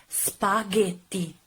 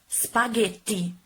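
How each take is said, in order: No difference in how they are said.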